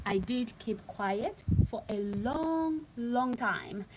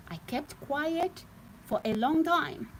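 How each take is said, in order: First: Slow emphatic "long, long time", drawing out "long"; stress on long. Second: Said in the usual way. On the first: Real, not acted. To her viewers, insisting she was silent, the word "long" stretched out. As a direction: lean hard on each "long", slowly. Repeats the phrase, slower second time.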